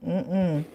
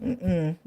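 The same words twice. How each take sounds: The two takes are said the same way.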